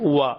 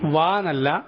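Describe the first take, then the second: First: Both lips come together, rounded. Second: The upper teeth touch the lower lip. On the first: The speaker calls it right. "ചുണ്ടുകൾ രണ്ടും കൂട്ടിപ്പിടിച്ച്" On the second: The speaker calls it wrong. "വാ നമ്മൾ മുകളിലത്തെ പല്ലുകൾ കൊണ്ട് താഴത്തെ ചുണ്ട് കടിച്ചിട്ട് പറയുന്ന വാ എന്നല്ല"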